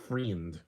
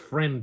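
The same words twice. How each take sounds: First: The word is said in a Kiwi accent. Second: The word is said without a Kiwi accent. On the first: The speaker calls it wrong. "not friend" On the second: The speaker calls it right. "It's friend, you idiot"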